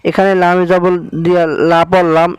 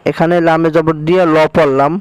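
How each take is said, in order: First: এখানে লামে জবর দিয়া লা পড়লাম with লা said full and heavy; লা as a heavy, full-mouthed sound. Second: ল in এখানে লামে জবর দিয়া ল পড়লাম said thick and rounded toward o; ল as a dark, rounded lo sound; thick lam. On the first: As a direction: give লা a thick heavy lam. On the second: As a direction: round ল into a heavy lo. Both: Shown as a demonstration. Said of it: "আল্লাহ শব্দের লামকে মোটা করে পড়তে হয়".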